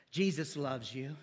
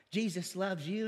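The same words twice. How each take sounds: First: Lower, slower and softer, coaxing like a gentle pastor; soft slow preacher coaxing. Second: Said in the usual way. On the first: Retold or imitated. Preacher coaxing a new believer, slow and soft. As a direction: lull them with a sweet pitch. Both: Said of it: "people want to trust what the pastor says".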